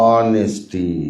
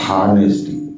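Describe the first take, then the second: First: The word starts directly with a vowel sound. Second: The word starts with an audible h sound. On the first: The speaker calls it right. "ఆనెస్ట్ not హానెస్టీ" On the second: The speaker calls it wrong. "Not హానెస్టీ"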